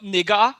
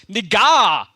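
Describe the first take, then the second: First: "nigger" said flatly with an "er" ending, not stressed; plain "nigger" ending in "er"; contrasting pronunciation. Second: "Nigga" stressed and louder, ending in an open "ah" sound; emphasized pronunciation. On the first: Caller contrasts the word the principal said he avoided, "nigger". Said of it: "and not". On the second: Caller retells the principal stressing the slang form "Nigga". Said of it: "he put an emphasis on it". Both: Retold or imitated.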